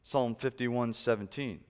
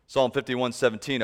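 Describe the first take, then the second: First: Said in the usual way. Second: Preached out loud. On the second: Shown as a demonstration. Repeats the verse reference, preaching.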